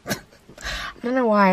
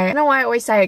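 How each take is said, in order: First: Laughing, slow. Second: Said in the usual way. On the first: Real, not acted.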